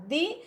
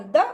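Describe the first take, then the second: First: दी with a full ee vowel; strong form. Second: द with a short uh vowel; weak form. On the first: Teacher recapping forms of the article, strong form. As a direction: say दी to rhyme with see. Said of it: "strong form दी". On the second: Teacher recapping forms of the article, weak form. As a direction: say द as a brief, reduced duh. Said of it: "weak form". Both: Shown as a demonstration.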